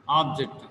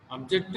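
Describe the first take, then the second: First: "object" with the first syllable stressed, falling after it. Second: "object" with the second syllable stressed, ending in a rise. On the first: Teacher repeats the example, "object" stressed on first syllable. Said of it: "Object means, uh, aim or goal". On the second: Teacher repeats the example, "object" stressed on second syllable. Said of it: "Object means to restrict". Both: Shown as a demonstration.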